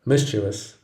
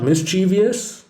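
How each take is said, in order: First: "mischievous" as MIS-chuh-vus; "mischievous" in three syllables; right mischievous. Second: "mischievous" as mis-CHEE-vee-us, rising; "mischievous" with an extra syllable; wrong mischievous. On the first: Teacher showing students the right way, "mischievous" as MIS-chuh-vus. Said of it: "The correct pronunciation is mischievous". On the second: Teacher showing students the wrong way, "mischievous" with an extra syllable. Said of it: "It is not mischievous". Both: Shown as a demonstration.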